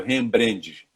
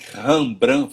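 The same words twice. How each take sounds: First: The name is said with Portuguese-style sounds. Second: The name is said in its original foreign way. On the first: The speaker calls it wrong. "sendo falado Rembrandt" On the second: The speaker calls it right. "ouvir o nome Rembrandt"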